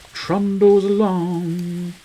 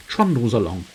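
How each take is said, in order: First: TRUNDLES ALONG stretched slowly, held high; drawn-out repeat. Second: Said in the usual way. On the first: Pretend. Gamer musing on how time passes, drawn-out high repeat. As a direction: draw out "Trundles along" in a higher, sustained voice.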